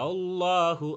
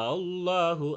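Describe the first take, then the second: No difference in how they are said.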